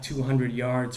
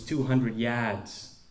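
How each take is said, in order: First: The r in yards is clearly pronounced. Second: The r in yards is dropped.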